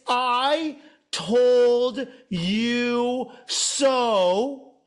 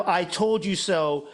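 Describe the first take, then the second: First: Hugely drawn-out, sing-song gloat; gloating I told you so. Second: Said in the usual way. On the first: Acted. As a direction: stretch every word out like a taunt, higher.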